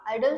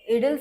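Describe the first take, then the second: First: The first vowel is a long 'eye' sound. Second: The first vowel is a short 'ih' sound. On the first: "आयडल सुद्धा म्हटलं जातं" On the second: "इडिल सुद्धा म्हटलं जातं"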